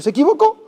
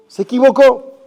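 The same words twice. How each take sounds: First: Said in the usual way. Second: "se equivocó" repeated higher and louder, pressing the point; emphatic repeat. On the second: Acted. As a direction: hammer home "se equivocó" a second time. ("se equivocó" repetido más alto y fuerte)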